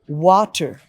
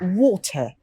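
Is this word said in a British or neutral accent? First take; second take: neutral; British. First: A neutral accent, neither British nor American. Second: A strong British accent, with no r sound. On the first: "That's the normal pronunciation. Not British, not American" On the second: "let me pronounce the British one"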